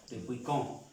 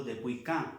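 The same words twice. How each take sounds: First: "quand" pronounced "kon", nasal O; correct nasal O. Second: "quand" mispronounced with an open A, like "kan"; wrong open A. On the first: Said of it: "suena O, con". ("quand" con O nasal, como "kon") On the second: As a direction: say "quand" as "kan", with A instead of nasal O. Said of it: "No digo". ("quand" mal dicho, con A, como "kan") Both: Shown as a demonstration.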